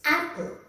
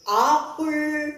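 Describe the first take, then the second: First: "apple" with a short front "a", as in cat; correct pronunciation. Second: "apple" stretched out slowly as "aap-purl"; regional mispronunciation. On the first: Teacher correcting regional versions, short-vowelled "apple". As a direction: say "apple" briskly, "AP-pl". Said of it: "So that's not it. It's apple". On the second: Teacher showing how not to say it, drawn-out "apple". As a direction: draw "apple" out with a broad "aa". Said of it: "So that's not it". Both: Shown as a demonstration.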